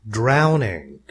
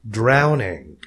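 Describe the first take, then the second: No difference in how they are said.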